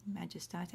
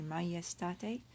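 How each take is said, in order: First: Majestate with a hard English J, as in majesty. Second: Majestate with the J said as a Y, slowly; "majestate" slowly, Latin style, mah-yes-tah-tay. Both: Shown as a demonstration. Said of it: "We pronounce the J in Latin as a Y".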